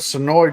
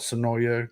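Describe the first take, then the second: First: The name is said with an R sound. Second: The name is said with a Y sound. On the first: "they are based out of Sonora" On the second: "some people call it Sonoya"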